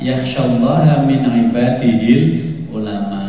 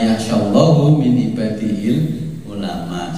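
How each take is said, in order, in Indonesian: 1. Kata Allah berakhir dengan vokal 'a'. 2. Kata Allah berakhir dengan vokal 'u'. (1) "Makanya jangan salah baca ini ya" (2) "Tapi sekarang kalimatnya dibalikin"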